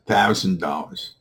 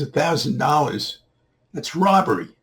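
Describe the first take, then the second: First: Said in the usual way. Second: High-pitched indignant disbelief; acted outrage. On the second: Man balking at the boy's new price, incredulous. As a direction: echo the price high, then protest.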